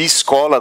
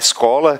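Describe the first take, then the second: First: The first vowel sounds almost like i. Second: The first vowel is an open e. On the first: "quase com som de I" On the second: "porque o timbre é aberto"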